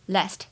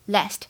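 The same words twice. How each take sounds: First: It has a short, flat 'a' vowel as in cat. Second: The same.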